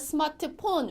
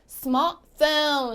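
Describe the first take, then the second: First: Every consonant is pronounced, including the t. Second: The middle t sound is dropped. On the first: The speaker calls it wrong. "우리는 이렇게 발음을 하지만" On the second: The speaker calls it right. "가운데 있는 t는 잘가 안녕 해주시고요. 탈락해주시고요"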